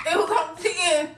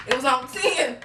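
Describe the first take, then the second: First: Higher, giggling as she repeats it; giddy laughing repeat. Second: Said in the usual way. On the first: Real, not acted. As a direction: laugh it out, overexcited. Repeats heart racing line.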